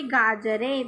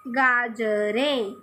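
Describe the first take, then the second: First: Said in the usual way. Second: गाजरें spoken very slowly while writing, falling at the end; slow dictation. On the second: Shown as a demonstration. Teacher slowly dictating गाजरें as she writes it. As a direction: draw गाजरें out slowly, syllable by syllable. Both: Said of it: "लिख के दिखा रही हूँ मैं".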